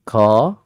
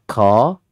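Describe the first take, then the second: Both takes have the same delivery.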